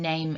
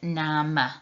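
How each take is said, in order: First: The word ends without a final vowel sound. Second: The word ends with a short uh sound. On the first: The speaker calls it wrong. "So it's not mein Name ist" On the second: The speaker calls it right. "that E that we have on the end of any word in German is an uh sound"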